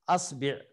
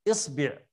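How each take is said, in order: First: The word begins with an a vowel. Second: The word begins with an i vowel. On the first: "نبدأ بالثانية الفتح" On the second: "الكسر"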